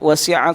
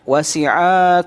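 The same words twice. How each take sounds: First: The final vowel is short. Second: The final vowel is drawn out long. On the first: The speaker calls it right. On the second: The speaker calls it wrong.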